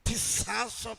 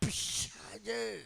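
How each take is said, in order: First: The word ends with an 's' sound. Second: The word ends with a 'ch' sound. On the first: The speaker calls it wrong. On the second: The speaker calls it right.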